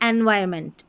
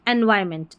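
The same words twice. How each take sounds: Both takes have the same delivery.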